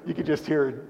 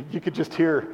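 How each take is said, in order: Both takes have the same delivery.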